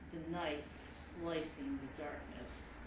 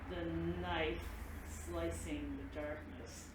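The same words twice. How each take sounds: First: It is said at a slower pace. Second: It is said at the slowest pace.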